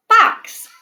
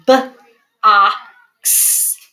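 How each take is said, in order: First: Box said whole on a high bright rise; cheerful whole word after sounding out; blended word. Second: B-ox with a break after b; sounded out. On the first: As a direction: blend it back together, high and excited. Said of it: "Let's try box". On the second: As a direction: split box into b then ox. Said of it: "to do the first sound green". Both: Shown as a demonstration.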